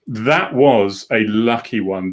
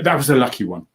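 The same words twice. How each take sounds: First: Slowed right down, leaning on that; drawn-out, savouring the luck; slow emphatic repeat. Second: Said in the usual way. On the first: Shown as a demonstration.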